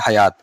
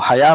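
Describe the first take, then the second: First: The word ends with a clear t sound. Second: The word ends on a vowel, no final t. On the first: This is the full form of the word. "वरना ये है हयात" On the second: The word is said this way when stopping on it. "हया मैं बोल रहा हूँ रुकने की वजह से"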